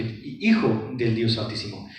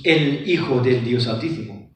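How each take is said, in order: First: Said in the usual way. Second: "el" leaned on before Hijo del Dios Altísimo; stress on the article. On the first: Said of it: "sino que". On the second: Shown as a demonstration. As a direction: put weight on "el", the Son. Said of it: "No dice Jesús".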